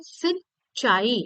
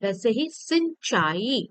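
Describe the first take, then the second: First: सिंचाई very slow, nasal सिं held; very slow demo word. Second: Said in the usual way. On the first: Shown as a demonstration. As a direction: spell out सिंचाई by sound, very slowly. (सिंचाई बहुत धीरे, सिं की नाक वाली ध्वनि साफ़) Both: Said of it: "हम इसको कैसे पढ़ते हैं?".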